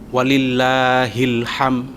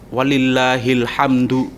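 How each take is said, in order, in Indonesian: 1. Kata terakhir berakhir dengan bunyi m polos. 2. Kata terakhir berakhir dengan suku kata du. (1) "itu salah" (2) "harokatnya dibaca walillahil hamdu, itu yang betul"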